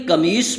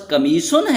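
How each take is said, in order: First: قمیص said without any ending, as Urdu speakers say it; قمیص in plain Urdu form; Urdu pronunciation. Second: قمیصن said the Arabic way, with the -un ending; قمیصن with the Arabic case ending; Arabic pronunciation. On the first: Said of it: "Urdu میں قمیص بولا جاتا ہے". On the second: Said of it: "عربی میں صحیح تلفظ". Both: Shown as a demonstration.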